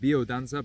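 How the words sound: It is said with a Spanish-style pronunciation. This is how Latin American speakers say it. "people call it biodanza, but I think that's more so for like the Latinos"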